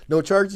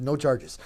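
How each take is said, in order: First: No charges? with a high rising tune, loud; laughing disbelief at the sheriff; incredulous question. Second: No charges. with a falling tune, settled; flat answer. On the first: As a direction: ask No charges? in loud disbelief, pitch climbing on charges. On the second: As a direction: state No charges. as final, dropping on charges. Sheriff's flat reply. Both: Retold or imitated.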